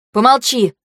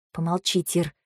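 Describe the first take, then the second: First: Raised-voice shushing; annoyed command for silence; irritated order. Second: Very soft, low murmur; hushed, absorbed plea for silence; subdued request. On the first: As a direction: cut them off crossly. Snaps at her to be silent. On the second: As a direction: ask quietly, preoccupied. Quiet request while thinking. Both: A narrator's reading.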